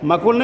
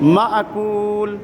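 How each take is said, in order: First: The first syllable runs smoothly without a catch. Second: A glottal catch follows the first syllable. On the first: The speaker calls it wrong. "मकुल नहीं" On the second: The speaker calls it right. "उसमें झटका लगेगा"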